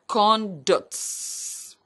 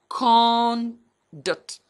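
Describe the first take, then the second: First: The stress is on the second syllable. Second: The stress is on the first syllable. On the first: It is used as a verb. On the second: It is used as a noun. "Noun or adjective"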